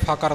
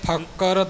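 First: The middle consonant is single and said lightly. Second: The middle consonant is doubled and held long. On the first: The speaker calls it wrong. "ਪੋਲਾ ਕਰਕੇ ਫਕਰ ਨਹੀਂ ਬੋਲਣਾ" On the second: The speaker calls it right. "ਫੱਫੇ 'ਤੇ ਭਾਰ ਦੇ ਕੇ"

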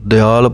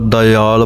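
First: No i vowel is heard after the d. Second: An i vowel is heard after the d. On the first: The speaker calls it wrong. "ਪਾਠ ਪੜ੍ਹ ਜਾਂਦੇ ਹਨ ਕਈ" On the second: The speaker calls it right. "ਈੜੀ ਦੀ ਆਵਾਜ਼ ਆਉਣੀ ਚਾਹੀਦੀ ਹੈ"

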